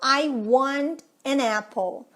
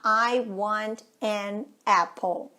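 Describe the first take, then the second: First: The n runs straight into the following vowel. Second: Each word is said separately, without linking. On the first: "Na hora que eu junto isso" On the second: "Tudo isso separado"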